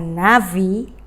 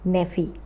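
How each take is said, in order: First: The first vowel is a full 'a' sound. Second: The first vowel is a short reduced 'e'. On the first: It is the plain form of 'prophet'. "menggunakan kamats" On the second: It means 'prophet of'. "dia berubah menjadi seva"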